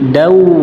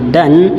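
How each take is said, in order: First: The syllable ends with a w-like glide. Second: The syllable ends with a clear n sound. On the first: "menjadi dau" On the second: "yang harusnya dan"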